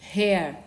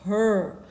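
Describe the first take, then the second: First: The vowel sounds like 'air'. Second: The vowel sounds like 'er'. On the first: The speaker calls it wrong. "Nós não pronunciamos H E R, que é H E R, hair" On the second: The speaker calls it right. "é her"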